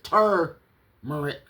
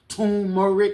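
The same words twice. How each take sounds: First: The first syllable has an R sound. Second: The first syllable has no R sound. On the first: "I didn't even know it was an R, that extra R" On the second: "I thought it was turmeric"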